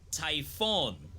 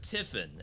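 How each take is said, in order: First: The last syllable has a hard O, like 'fawn'. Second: The last syllable has a short vowel, like 'fin'. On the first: "So like a hard O. Fawn" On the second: "I've heard Tiffin as well"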